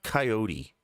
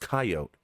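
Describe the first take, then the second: First: The final E is sounded, giving three syllables. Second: The final E is silent, giving two syllables. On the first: The speaker calls it wrong. "It's not coyote. And the reason it's not coyote is because in the English language, we don't normally say the E at the end of words" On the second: The speaker calls it right. "It's pronounced coyote"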